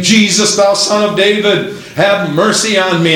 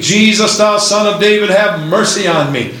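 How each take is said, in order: First: Mild preacher's version of a plea; declaimed cry for mercy, held in check. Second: Higher, urgent preached plea; preacher imitating a desperate shout; mild mock scream. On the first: Acted. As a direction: call out the plea in a raised preaching voice. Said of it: "And he cried". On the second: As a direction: cry out for mercy without a full scream. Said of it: "He screamed".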